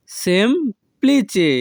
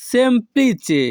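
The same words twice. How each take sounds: First: সেমপ্লিচে split slowly after the first syllable. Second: Said in the usual way. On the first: Shown as a demonstration. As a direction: pause inside সেমপ্লিচে, "sem... pli-che". Teacher repeats word split for learners.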